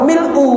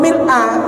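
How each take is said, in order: First: The word ends with an 'u' vowel. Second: The word ends with an 'a' vowel. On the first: The word describes the praise, or is the predicate. "marfu atau dhom dhammah" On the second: The word is in the accusative case. "diwaca nasab atau mansub di fathah"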